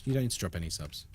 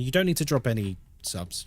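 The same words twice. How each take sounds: First: Much softer, lower and fast, thrown away; quiet quick repeat. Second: Said in the usual way. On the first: Real, not acted. Streamer repeating reassurance to a viewer, soft and quick. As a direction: mumble it again under your breath, quickly.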